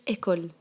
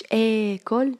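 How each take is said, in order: First: Said in the usual way. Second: "école" with a long, stretched opening vowel; wrong drawn-out pronunciation. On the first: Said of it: "mais قلت". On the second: Shown as a demonstration. Teacher showing pupils the mistaken form, "école" with its first vowel dragged out. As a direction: hold the "é" of "école" far too long. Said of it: "ما قلتش".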